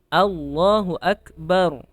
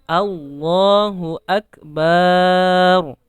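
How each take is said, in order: First: The vowel after the b is short. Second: The vowel after the b is drawn out long. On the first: God is the greatest. The speaker calls it right. "Allah Maha Besar" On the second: It turns the praise into an insult. The speaker calls it wrong. "Allahnya udah betul, tetapi ba-nya dipanjangin"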